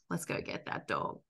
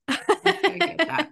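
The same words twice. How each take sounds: First: Hushed, breathy egging-on with no voice; low conspiratorial whisper to the dog; whispered urging. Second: Higher, slow, sing-song urging; drawn-out cheeky dare; playful egging-on. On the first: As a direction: whisper it like a sneaky dare. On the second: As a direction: hype the dog up teasingly. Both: Retold or imitated. Urging his dog toward trigger.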